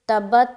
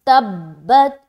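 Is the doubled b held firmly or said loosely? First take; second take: loose; firm. First: The doubled b is said loosely, without firmness. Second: The doubled b is held firmly and pressed. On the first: The speaker calls it wrong. "तब्बत नहीं बोलना" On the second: The speaker calls it right. "इस तरीके से अदा करना है"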